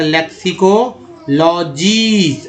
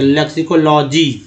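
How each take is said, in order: First: लेक्सिकोलॉजीज with a long held जीज; drawn-out pronunciation. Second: Said in the usual way. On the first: Shown as a demonstration. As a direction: stretch लेक्सिकोलॉजीज as लेक्सिको-लॉ-जीईज. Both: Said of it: "ईज है".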